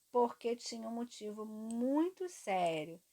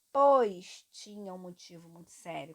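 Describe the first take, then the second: First: Said in the usual way. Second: Pois said louder and leaned on; stress on pois. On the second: Shown as a demonstration. Teacher showing the class the swap, pois said louder and stressed. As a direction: lean into the word pois to show the swap. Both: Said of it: "Quando substitui por pois".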